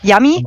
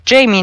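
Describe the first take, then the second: First: The first vowel sounds like 'ah' in 'father'. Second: The first vowel sounds like 'ay' in 'day'. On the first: This is how Spanish speakers say it. "in Spanish, they pronounce the A like a A" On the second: This is how English speakers read it. "in English, of course, ... then it would be like Jamie"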